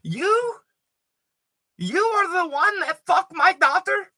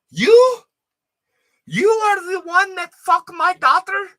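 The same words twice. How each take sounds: First: Put-on high-pitched accented mother, squeaky and outraged; angry Albanian mom. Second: Put-on high, loud accented shriek at the roommate; angry Albanian mom. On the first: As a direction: repeat it as a shrill mock mom. Repeated angry mom line. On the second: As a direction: screech it like a furious immigrant mother.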